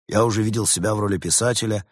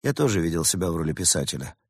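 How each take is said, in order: First: Said in the usual way. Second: Mildly rueful, a little subdued; sighing admission. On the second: A narrator's reading. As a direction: confess it with a touch of a sigh. (признание со вздохом) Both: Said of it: "со вздохом признался".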